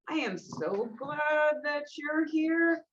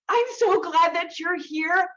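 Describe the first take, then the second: First: The voice sounds cold and insincere. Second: The voice sounds warm and sincere. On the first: The speaker is not really glad the listener came. "That would communicate, I'm not so glad that you're here" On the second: The speaker is truly glad the listener came. "you might feel that I actually mean it"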